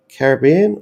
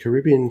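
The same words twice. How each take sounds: First: It is said in a non-American way. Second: It is said the way Americans say it.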